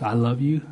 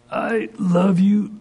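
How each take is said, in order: First: Said in the usual way. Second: Slow, high, strained restraint; biting his tongue. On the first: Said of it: "All I want you to say". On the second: Retold or imitated. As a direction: force out tender words while holding back a scolding. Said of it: "he'd bite his tongue".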